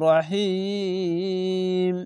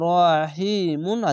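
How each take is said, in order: First: The word stops on the 'm' sound. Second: The word ends with a nasal 'un' syllable. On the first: This is how to pause on the word. "রহিম এভাবে থামতে হবে" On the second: This is how the word is written in full. "এখানে রহিমুন আছে"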